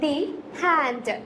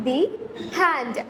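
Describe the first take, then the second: No difference in how they are said.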